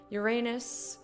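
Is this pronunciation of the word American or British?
American. The word is said in an American way.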